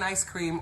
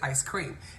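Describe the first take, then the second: First: The stress falls on the word ice. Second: The stress falls on the word cream. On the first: "do you emphasize the ice in ice cream" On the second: "or is it ice cream?"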